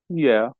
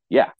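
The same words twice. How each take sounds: First: It is drawn out with a hesitant tone. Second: It is short and plain with no hesitation. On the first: It actually means no. "I didn't hear the tone. I didn't hear the hesitation. I didn't hear the dragging into it" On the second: It means yes. "What I heard is"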